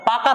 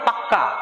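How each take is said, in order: First: The middle consonant is short and single. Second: The middle consonant is doubled and held long. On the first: It is said neutrally. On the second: It adds emphasis.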